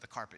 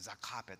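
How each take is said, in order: First: 'The' is said with a normal TH sound. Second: 'The' is said like 'za', Japanese-accented.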